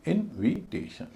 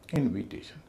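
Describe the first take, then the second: First: इनविटेशन slowly, in separate syllables; slow teaching demo of इनविटेशन with gaps between syllables. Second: Said in the usual way. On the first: Shown as a demonstration. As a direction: sound out इनविटेशन one syllable at a time. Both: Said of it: "उसका उच्चारण वही होगा जो होना चाहिए".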